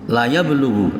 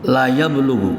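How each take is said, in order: First: The vowel in "la" is short. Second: The vowel in "la" is short.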